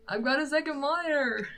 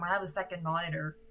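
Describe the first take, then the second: First: Much higher, put-on repeat; playful high voice. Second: Said in the usual way. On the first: Streamer jokily restating to viewers, playful high voice. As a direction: say it again in a playful raised voice.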